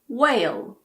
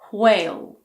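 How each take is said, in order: First: The word begins with a plain w sound. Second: The word begins with a breathy hw sound.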